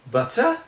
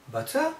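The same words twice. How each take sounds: First: Butter punched much higher and louder; emphasized butter. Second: Butter rising steeply high as a question, "butter?". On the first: Teacher stressing butter to show emphasis. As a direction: hit butter hard and high. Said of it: "So the word is emphasized". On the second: Teacher showing butter asked as a question. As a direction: ask "Butter?" with a big upward lift. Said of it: "a question". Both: Shown as a demonstration.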